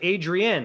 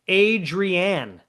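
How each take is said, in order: First: The last syllable is a weak, reduced 'an'. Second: The last syllable is a full 'Anne'. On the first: "I pronounce it" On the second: "like Anne, A N N E at the end"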